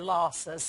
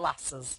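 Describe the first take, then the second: First: It uses a southern English pronunciation. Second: It uses a northern English pronunciation. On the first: The speaker lives in the south of England. "if you live in the south of England, they're Lhasas" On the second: The speaker lives in the north of England. "If you live in the north, they're Lassas"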